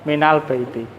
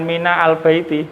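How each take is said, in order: First: The words run together with no separate al. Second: A full vowel, then a separate al sound. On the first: The speaker calls it right. "alnya tidak baca lagi" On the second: The speaker calls it wrong. "bukan mina al baiti"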